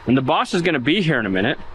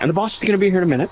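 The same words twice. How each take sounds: First: It is said slowly. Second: It is said fast.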